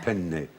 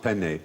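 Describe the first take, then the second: First: The n sound in the middle is long. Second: The n sound in the middle is short. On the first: The speaker calls it right. "you do have to do the double penne" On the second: The speaker calls it wrong. "it's not penne"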